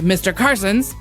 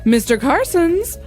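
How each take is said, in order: First: It sounds blunt and very direct. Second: It sounds like calling out to someone. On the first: The speaker is confronting the person. "in a very direct way" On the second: The speaker is summoning the person. "like she's calling him"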